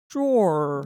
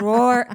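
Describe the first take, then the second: First: "drawer" said like "draw", louder and lower; dictionary pronunciation. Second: "Drawer" said as one syllable, "droor", much louder; Jersey way. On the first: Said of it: "I hit it and it came out". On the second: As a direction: belt "Drawer" the old Jersey way. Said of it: "Why do we say it like this?". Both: Shown as a demonstration.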